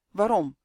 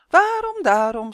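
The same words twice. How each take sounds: First: Said in the usual way. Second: Waarom sung very high and loud, daarom dropping back; sung taunt. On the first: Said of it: "vroeg Justin". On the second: A narrator's reading. Witch singing her taunt back at Justin, high and mocking. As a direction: chant it like a playground tease. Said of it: "zong het vrouwtje".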